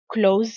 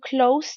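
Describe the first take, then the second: First: The final consonant is a buzzing z sound. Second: The final consonant is a hissing s sound. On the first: It means to shut. "quand ce mot est utilisé en tant que verbe ou en tant que nom, il va se prononcer Z" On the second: It means near. "lorsque il est utilisé en tant qu'adjectif ou adverbe, le S va se prononcer S"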